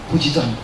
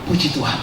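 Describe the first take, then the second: No difference in how they are said.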